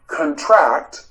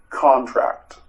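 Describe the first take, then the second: First: Teacher showing contract as a verb meaning to become smaller, said con-TRACT; verb stress. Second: Teacher demonstrating Contract as a noun, stressed CON-tract. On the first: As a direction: contract with the stress on the second syllable, con-TRACT, first vowel reduced. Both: Shown as a demonstration. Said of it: "If you say the word contract".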